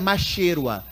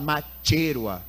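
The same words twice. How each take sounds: First: The ch is said without a t sound. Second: The ch is said as tch. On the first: This is how it would be read locally. "a gente aqui leria" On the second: This is how speakers there say it. "mas lá fala"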